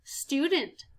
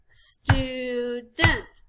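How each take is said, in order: First: Said in the usual way. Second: STU... DENT in two long beats; slow, separated STU-DENT; split into syllables. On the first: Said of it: "listening for how many syllables". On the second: Shown as a demonstration. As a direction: sound out student syllable by syllable. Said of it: "Two syllables".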